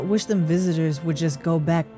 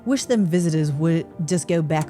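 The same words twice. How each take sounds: First: It is read in the speaker's ordinary accent. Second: It is read in a British accent.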